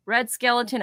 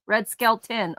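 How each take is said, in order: First: "Skeleton" said as three syllables, skel-uh-ton; mispronounced. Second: "Skeleton" said as two syllables, Skel-tin; corrected pronunciation. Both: Real, not acted. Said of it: "you say Red Skeleton".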